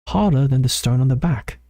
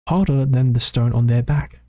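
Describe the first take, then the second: First: The word 'their' sounds reduced, like 'the'. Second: The word 'their' is pronounced clearly and fully. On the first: The speaker calls it wrong. "it almost sounded like I just said the back" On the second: The speaker calls it right. "that's a better enunciation"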